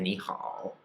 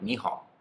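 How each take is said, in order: First: The last syllable has a full, complete dipping tone. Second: The last syllable is quick and its dip drops off. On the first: "instead of ni hao" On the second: "say that how very quickly... It might almost kind of drop off"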